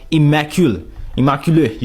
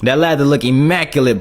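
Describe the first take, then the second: First: Immaculate as French-style ee-ma-kew-luh; French accent. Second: Said in the usual way. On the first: Shown as a demonstration. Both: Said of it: "How you say immaculate in French?".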